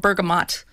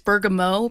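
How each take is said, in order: First: The word is said with a plain English pronunciation. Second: The word is said with a French pronunciation.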